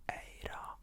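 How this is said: It is said with an Arabic pronunciation. The speaker calls it right. "But in Arabic, it's so beautiful sounding"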